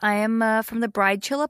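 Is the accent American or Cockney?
American. It is spoken in an American accent. "introduce yourself in an American voice"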